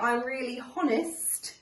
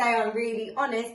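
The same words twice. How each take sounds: First: Honest begins with an audible H sound. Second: Honest begins with a vowel, no H sound. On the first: The speaker calls it wrong. "don't say I'm really honest" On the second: The speaker calls it right. "You would say I'm really honest"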